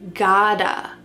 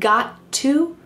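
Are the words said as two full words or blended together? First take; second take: blended; two words. First: The words blend into one reduced word. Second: The two words are said fully and separately. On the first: "we can say gotta" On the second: "Instead of saying I've got to"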